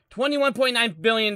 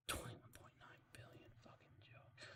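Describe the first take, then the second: First: Said in the usual way. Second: Breathy whisper under the breath; whispered aside. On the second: Real, not acted. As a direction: hiss the number as a private aside. Whispered aside, then repeated plainly.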